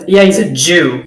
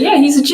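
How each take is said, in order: First: It is said in a scornful, loaded tone. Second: It is said in a plain, neutral tone. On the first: It sounds like an insult. The speaker calls it wrong. "Totally different meaning" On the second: It is a harmless statement of fact. The speaker calls it right. "like that's fine"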